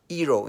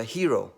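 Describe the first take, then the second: First: "hero" with no H, starting on the vowel; dropped H. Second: Said in the usual way. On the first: Shown as a demonstration. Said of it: "an hero instead of a hero". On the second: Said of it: "instead of a hero".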